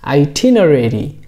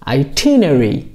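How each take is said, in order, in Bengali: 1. শব্দটি আমেরিকান উচ্চারণে বলা হয়েছে। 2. শব্দটি ব্রিটিশ উচ্চারণে বলা হয়েছে। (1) "আমেরিকান প্রনাউন্সিয়েশন হচ্ছে" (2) "ব্রিটিশ প্রনাউন্সিয়েশন হলো"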